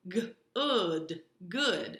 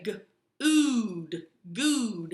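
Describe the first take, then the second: First: Good sounded g then ood with the short oo of foot; stretched short oo in good, then blended. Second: Good sounded g then ood with a long oo, like food; loud stretched ood in good, rhyming with food; wrong oo sound. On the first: Teacher showing the right short oo in good. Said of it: "try the second sound ... which is uh". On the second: Teacher showing the wrong oo in good. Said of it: "try to sound it out first with the oo sound". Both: Shown as a demonstration.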